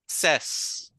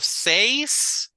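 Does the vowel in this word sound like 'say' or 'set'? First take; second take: set; say. First: The vowel sounds like the one in 'set'. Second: The vowel sounds like the one in 'say'. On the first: The speaker calls it right. "it's ses" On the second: The speaker calls it wrong. "Instead of says"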